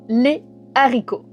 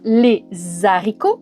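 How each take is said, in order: First: No z sound links les to haricots. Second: A z sound links les to haricots. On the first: The speaker calls it right. "on doit dire ... pas de liaison" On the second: The speaker calls it wrong. "On ne dit pas"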